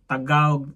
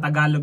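First: The middle L is dropped, giving a w-like sound. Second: The middle L is clearly pronounced. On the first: This is how people from Cebu say it. "like yung L parang inaano nila ba" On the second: This is the usual way to say it. "imbis na Tagalog"

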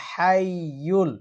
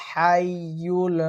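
The two takes are said the same way.

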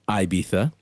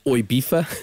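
First: It is said in a pretentious, affected way. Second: It is slurred like a drunk British clubber. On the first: The speaker is a pretentious music snob. "Pretentious music snob" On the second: The speaker is a drunk British clubber. "Number one is the drunk Brit"

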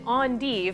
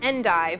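First: The word is said in the fancy way. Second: The word is said in the everyday way. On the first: "if you're fancy, you can pronounce it endive" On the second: "this is endive"

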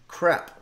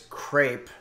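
First: The word is said with a French pronunciation. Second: The word is said with an English pronunciation. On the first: The speaker calls it right. "This is the way they pronounce it in France" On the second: The speaker calls it wrong. "A lot of people mispronounce today's dish as crepe"

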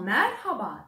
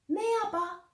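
First: The R sound is pronounced clearly. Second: The R sound is swallowed and unclear. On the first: The speaker calls it right. "R harfini de güzelce söylemiş" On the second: The speaker calls it wrong. "O zaman doğru ve anlaşılır olmaz değil mi?"

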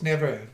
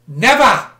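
First: It is said with an American accent. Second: It is said with a British accent. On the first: "In American English, it's never" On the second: "That was a British emphasis"

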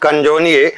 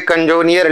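First: The word ends in a vowel, no 'r'. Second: The word ends with an audible 'r' sound. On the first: The speaker calls it right. "लेकिन इसको प्रोनाउंस करते हैं क्या" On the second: The speaker calls it wrong. "पढ़ने में तो आ जाता है कंजोनियर"

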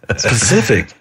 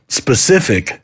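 First: The word begins with a p sound. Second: The word begins with an s sound. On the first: The speaker calls it wrong. "Like Pacific" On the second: The speaker calls it right. "instead of saying specific"

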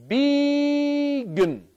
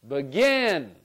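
First: The stress falls on the first syllable. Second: The stress falls on the second syllable. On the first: The speaker calls it wrong. "Let's try it the other way" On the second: The speaker calls it right. "with the second syllable, I'm going to say that one louder, longer, and higher"

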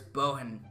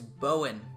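First: The middle h sound is clearly pronounced. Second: The middle h sound is left out. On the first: "I'm pretty sure it's Bohen. Because it's an H" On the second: "maybe the H is silent"

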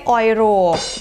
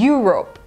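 First: The word begins with an 'oy' sound. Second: The word begins with a 'yu' sound. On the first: The speaker calls it wrong. "ไม่ใช่ออยโรป" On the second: The speaker calls it right. "มันออกเสียงเป็นตัว y yu"

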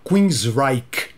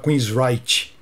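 First: The name ends with a K sound. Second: The name ends without a K sound. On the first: This is the band's real name. "O nome da banda então é Queensryche, com K" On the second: This is how people here say it. "todo mundo aqui fala Queensryche"

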